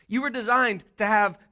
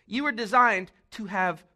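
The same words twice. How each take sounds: The two takes are said the same way.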